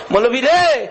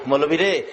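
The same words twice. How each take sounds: First: High, loud wail of address; tearful cry out. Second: Understated weeping address, falling away; subdued tearful plea. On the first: Weeping brother calling the cleric, high loud cry. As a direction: call out loudly, pitch arching up and falling. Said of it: "ভাই কান্দে আর কয়". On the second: Elder brother weeping to the cleric, subdued plea. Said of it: "বড় ভাই কান্দে". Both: Retold or imitated.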